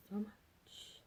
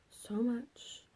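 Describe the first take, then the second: First: "So much" repeated much softer; softer echo. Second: "so much" with a lifted end; so much, rising. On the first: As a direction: murmur "So much" again, quietly. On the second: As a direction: let "so much" rise gently. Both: Shown as a demonstration.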